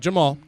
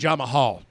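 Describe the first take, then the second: First: The name is said with two syllables. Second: The name is said with three syllables. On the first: The speaker calls it wrong. "Not Jamal" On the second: The speaker calls it right. "There's an extra A in there"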